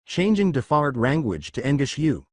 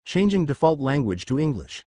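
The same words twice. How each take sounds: First: Mock Japanese-accented English, L turned to R. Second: Put-on lightly British-accented English, cleanly pronounced. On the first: Switches to mangled English accent. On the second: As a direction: say it in correct English with a hint of British. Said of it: "sounded British enough to make a proper cup". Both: A narrator's reading.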